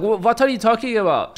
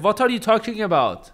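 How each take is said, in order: First: Put-on higher, insistent Iranian-accented dad. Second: Put-on high, puzzled dad in an Iranian accent. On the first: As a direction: demand it like an annoyed Iranian father. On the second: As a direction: ask it like a confused Iranian father. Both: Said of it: "he got that Iranian full accent".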